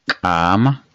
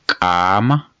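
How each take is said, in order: The two takes are said the same way.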